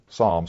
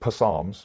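First: The word starts with an s sound, no p. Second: The word starts with a sounded p before s. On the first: The speaker calls it right. "we pronounce Psalms" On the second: The speaker calls it wrong. "We don't say Psalms because the P is silent"

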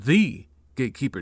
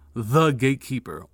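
First: 'The' is said as a full, emphatic 'thee'. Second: 'The' is said as a short, reduced 'thuh'. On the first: He was the one supreme gatekeeper above all others. "Now you see the difference between the Sam D and the Sam D" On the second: He was the main gatekeeper. "Now you see the difference between the Sam D and the Sam D"

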